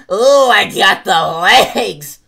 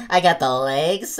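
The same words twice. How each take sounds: First: Loud, drawn-out brag; excited brag. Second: Said in the usual way. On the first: Acted. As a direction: show off proudly. Showy repeat.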